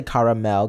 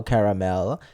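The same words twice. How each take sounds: First: "caramel" as CAR-uh-mel; other people's pronunciation. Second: "caramel" as CARE-uh-mel, pitched lower; alternative pronunciation. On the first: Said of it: "Other people say caramel". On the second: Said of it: "different way of saying things". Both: Shown as a demonstration.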